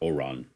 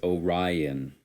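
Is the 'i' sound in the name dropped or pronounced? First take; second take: dropped; pronounced. First: The 'i' sound is dropped from the name. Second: The 'i' sound is pronounced in the name. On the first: The speaker calls it wrong. "It's not Oron" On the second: The speaker calls it right. "you gotta say the I. The I's not silent"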